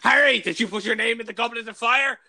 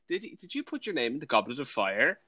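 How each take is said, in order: First: The question is asked aggressively. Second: The question is asked calmly.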